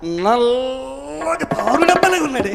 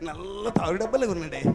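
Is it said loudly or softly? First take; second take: loudly; softly. First: It is said loudly and bluntly. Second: It is said softly and gently.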